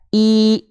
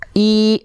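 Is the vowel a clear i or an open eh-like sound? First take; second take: clear i; clear i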